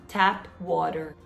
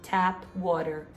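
Both takes have the same delivery.

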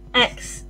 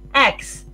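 First: It is said in another English accent. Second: It is said in another English accent.

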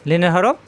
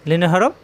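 The two takes are said the same way.

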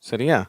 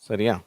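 No difference in how they are said.

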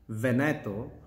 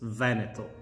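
First: The stress is on the second syllable. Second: The stress is on the first syllable. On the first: It means I clean you, plural, in dialect. The speaker calls it wrong. "put the accent on the second E" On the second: It names the region. The speaker calls it right. "the correct pronunciation is with an accent on the first E"

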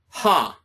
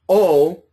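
First: The word starts with an h sound. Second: The word starts directly with the vowel. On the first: The speaker calls it right. "but ha" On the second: The speaker calls it wrong. "the way that we pronounce this word is not O"

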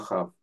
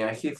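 First: The last vowel sounds like 'ah'. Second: The last vowel sounds like 'ee'. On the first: The speaker calls it right. "а Ахав" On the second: The speaker calls it wrong. "Не Ахив"

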